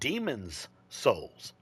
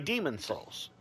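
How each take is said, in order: First: Demon is said with a final s sound. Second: Demon is said without a final s sound. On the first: This is the official form of the name. "It's called demons souls" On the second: This is the common casual way people say the name. "I would just say demon souls. That's how everybody pronounces it"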